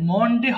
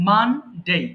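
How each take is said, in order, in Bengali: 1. প্রথম স্বরধ্বনিটি একটি গোলাকার o ধ্বনি। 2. প্রথম স্বরধ্বনিটি একটি খোলা a ধ্বনি।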